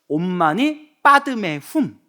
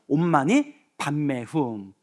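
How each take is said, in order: First: The middle word sounds like padme. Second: The middle word sounds like bamme. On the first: This is the Sanskrit pronunciation. "인도 산스크리트어로는" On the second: This is the Korean pronunciation. "우리나라는"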